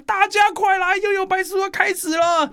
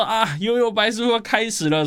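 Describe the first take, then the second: First: Very high-pitched mock yell of a sister; imitated excited shout. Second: High-pitched exclamation, normal volume; excited realisation. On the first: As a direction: call everyone over in a high, urgent shriek. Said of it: "我姐姐就会大喊". (模仿姐姐高声大喊) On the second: Acted. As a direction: exclaim it high, as if just recognising the theme tune. Acting out recognising the theme music. (兴奋地恍然大悟，音调偏高)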